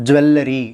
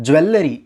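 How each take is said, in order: No difference in how they are said.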